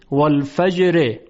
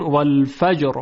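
First: والفجر with a short i after the r, "wal-fajri"; light ر plus i ending in والفجر; connected reading. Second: والفجر stopping on a vowelless, heavy r; pausal ending. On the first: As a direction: voice the final kasra of والفجر. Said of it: "اگر بخوایم وقف بکنیم". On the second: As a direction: drop the final vowel of والفجر. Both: Shown as a demonstration.

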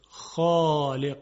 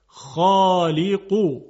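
First: خالق said slowly with a light thin خ; wrong light kh. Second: خالقو said very slowly with a heavy, full خ, louder; heavy emphatic kh. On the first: Teacher showing the incorrect light خالق, slow and thin. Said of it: "یعنی ما نمیتونیم بگیم خالق". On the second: Teacher demonstrating the correct heavy خالقو, slow and loud. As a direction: stretch خالقو out, tongue back, thick and heavy. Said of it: "نمیتونیم بگیم خالق". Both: Shown as a demonstration.

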